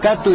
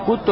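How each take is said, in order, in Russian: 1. Первая гласная — a. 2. Первая гласная — u. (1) "не «катту»" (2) "и не «кутту»"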